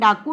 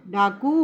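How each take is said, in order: First: The final vowel is said short. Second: The final vowel is said long. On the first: The speaker calls it wrong. "लेकिन डाकू नहीं होता" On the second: The speaker calls it right. "तो बड़े ऊ की मात्रा इसमें आएगी"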